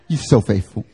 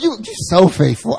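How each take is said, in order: First: It is said in a deeper, lower voice. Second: It is said in a higher, lighter voice. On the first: A man is saying it. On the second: A woman is saying it.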